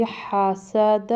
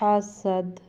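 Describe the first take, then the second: First: حاسد as "ha-sa-da", open final vowel; full-vowel حاسد; joined, throaty h. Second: حسد with a slight bounce on the final d; throaty h and vowelless echoed d in حسد; pausal qalqala. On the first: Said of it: "ہا بھی حلق سے نکالنا ہے". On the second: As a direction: close حسد on a lightly shaken d. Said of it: "تھوڑا سا قلقلہ کریں گے، یعنی ہلائیں گے". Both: Shown as a demonstration.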